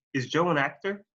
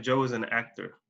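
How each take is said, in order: First: A clear question, voice rising on "actor"; rising question tune. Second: Low-pitched statement, "actor" dropping; falling statement tune. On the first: Teacher contrasts question with statement, rising tone on "actor". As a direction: send "actor" upward at the end. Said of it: "quiero que escuchen la diferencia". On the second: Teacher contrasts statement with question, falling tone on "actor". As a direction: let the voice sink on "actor". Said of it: "en vez de". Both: Shown as a demonstration.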